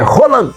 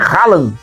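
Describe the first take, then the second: First: The first vowel sounds like 'oh'. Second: The first vowel sounds like 'ah'. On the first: The speaker calls it right. "é Roland" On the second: The speaker calls it wrong. "a pronúncia do jogador norueguês não é Haaland, como a gente estava dizendo"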